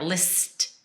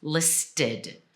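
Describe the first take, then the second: First: Single-syllable LIST; no added vowel. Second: LISTED in two clear syllables, "list-id"; slow LISTED with a separated "did"; added vowel. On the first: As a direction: LIST as one syllable ending on T. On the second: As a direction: give "listed" a full short-I second syllable. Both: Shown as a demonstration. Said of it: "you kinda need a vowel there".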